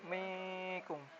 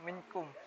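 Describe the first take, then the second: First: The n sound is hidden and nasalized. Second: The n sound is pronounced clearly. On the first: The speaker calls it right. "sedikit samar membacanya" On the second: The speaker calls it wrong. "bukan minkum"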